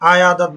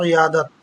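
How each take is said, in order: First: The word begins with an 'ah' sound. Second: The word begins with an 'ee' sound. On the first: The speaker calls it wrong. "আয়াদত বলে অনেকে" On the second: The speaker calls it right. "উচ্চারণ হবে ইয়াদত"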